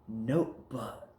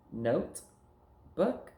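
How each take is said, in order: First: "notebook" as one slow, drawn-out word, falling; words joined. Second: "Note", then "book", each alone with a rising tune; words kept apart. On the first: Teacher putting two words together, slow joined "notebook". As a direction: blend "notebook" together slowly. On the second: Teacher prompting pupil to join words, separate "Note", "book". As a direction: pause clearly between "Note" and "book". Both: Shown as a demonstration. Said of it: "take words and put 'em together".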